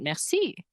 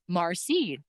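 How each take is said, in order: First: It is said with a standard French pronunciation. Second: It is said with a Métis pronunciation. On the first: "not merci" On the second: "I've only ever heard Métis people use that pronunciation"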